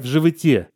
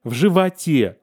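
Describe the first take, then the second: First: The unstressed vowel sounds obscure, not like a. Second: The unstressed vowel sounds like a clear a. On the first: This is the newer pronunciation of the future. "а у него" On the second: This is the traditional literary pronunciation. "это должно быть А-образный звук"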